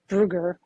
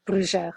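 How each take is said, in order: First: The middle consonant is a hard g. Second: The middle consonant is a soft sound. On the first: This is the original German form of the name. "it's a Swiss German name, and so it's Brugger" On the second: This is how the family usually said it. "we used to say Brujar"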